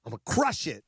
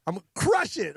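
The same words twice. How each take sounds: First: Said in the usual way. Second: Hyped-up repeat. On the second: Retold or imitated. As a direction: psych yourself up, punching crush.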